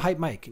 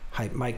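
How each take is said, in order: First: The voice has no compression applied. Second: The voice is heavily squashed and clamped down. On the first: "no compression" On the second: "compression three. So that's the super squash"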